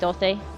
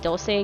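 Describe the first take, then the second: First: The c is said like a lisped th sound. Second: The c is said like a plain s sound. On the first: The speaker calls it wrong. "instead of saying doce" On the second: The speaker calls it right. "properly say doce again"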